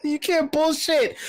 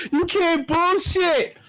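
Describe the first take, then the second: First: Mock stretched voice. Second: Slow, stretched mocking voice. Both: Mocking, repeating the catchphrase.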